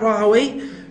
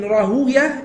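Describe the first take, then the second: First: The name ends with a 'way' sound. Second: The name ends with a 'ya' sound. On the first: The speaker calls it wrong. "and not Rahaway" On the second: The speaker calls it right. "you pronounce it Ishaq ibn Rahuya"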